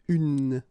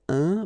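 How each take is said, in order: First: The vowel is oral with a final n. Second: The vowel is nasal with no final n. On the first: The speaker calls it right. "but then it's une" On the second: The speaker calls it wrong. "you won't have to pronounce it like une nasale un"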